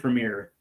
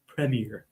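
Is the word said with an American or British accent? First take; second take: American; British. First: It is said with an American accent. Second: It is said with a British accent.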